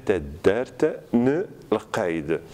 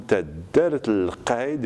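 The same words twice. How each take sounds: First: "tadert ne l qaid" word by word, n restored; written form. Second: "tadert l qaid" linked, the n turned into l; assimilated L. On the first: Teacher dictating spelling, "tadert ne l qaid" in distinct pieces. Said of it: "et on va écrire". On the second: Teacher showing the spoken form, "tadert l qaid" assimilated. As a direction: run "tadert l qaid" together on the l. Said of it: "nous aurons l comme". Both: Shown as a demonstration.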